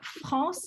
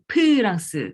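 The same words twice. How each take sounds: First: The word begins with an f sound. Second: The word begins with a p sound. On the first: This is the usual French pronunciation. "c'est pas France" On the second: This is how Korean speakers say it. "Ça devient P"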